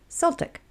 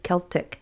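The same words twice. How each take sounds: First: The word begins with a soft S sound. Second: The word begins with a hard K sound. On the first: "some say it with an S sound" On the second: "Some folks say it with a hard K sound"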